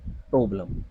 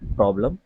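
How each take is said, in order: First: The first vowel is a closed o sound. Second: The first vowel is an open o sound. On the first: The speaker calls it wrong. "ना कि" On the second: The speaker calls it right. "तो ये क्या है word"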